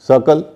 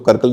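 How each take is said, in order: First: The word begins with an S sound. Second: The word begins with a K sound. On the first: The speaker calls it right. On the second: The speaker calls it wrong.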